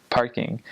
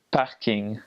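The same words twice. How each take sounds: First: Said in the usual way. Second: "parking" said the French way; "parking" with a French R and vowels; French pronunciation. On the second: Shown as a demonstration. French word, then English one.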